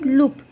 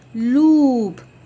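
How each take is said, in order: First: The vowel is short. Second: The vowel is long. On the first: The speaker calls it wrong. "It's not loop" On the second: The speaker calls it right. "Then it's long"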